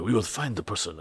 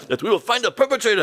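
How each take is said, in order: First: Toned-down guard. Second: High-pitched, melodramatic promise; overacting guard. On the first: Retold or imitated. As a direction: rein in the acting, sound hesitant. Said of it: "not too much overacting". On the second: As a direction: ham up the security man's vow. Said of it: "One of the guys was overacting".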